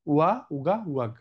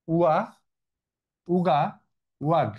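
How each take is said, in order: First: উয়া, উগা, ওয়াগ said as a quick silly chant; playful nickname sounds. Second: উয়া, উগা, ওয়াগ said as funny nonsense words for the stop codons; playful nickname sounds. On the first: (মুখস্থ করার ছড়ার মতো উয়া, উগা, ওয়াগ) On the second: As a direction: read উয়া উগা ওয়াগ like a silly chant. (মজার ছন্দে উয়া, উগা, ওয়াগ) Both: Shown as a demonstration. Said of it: "আমি এটাকে এমনিই উচ্চারণ করি".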